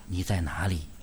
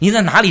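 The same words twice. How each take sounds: First: It sounds gentle and caring, like a tender call. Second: It sounds harsh and demanding, like a summons. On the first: The caller lovingly seeks the hiding person. The speaker calls it right. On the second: The caller is angry and demands that the hiding person come out. The speaker calls it wrong.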